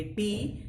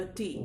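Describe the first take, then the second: First: टी with a hard Hindi ट; Hindi pronunciation. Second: टी with a softened English t; English pronunciation. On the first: Teacher contrasting languages, Hindi T. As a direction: say टी firm, with no puff. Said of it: "Hindi में बोलेंगे". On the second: Teacher contrasting languages, English T. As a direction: soften टी, less force on the t. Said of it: "English में ये होगा". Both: Shown as a demonstration.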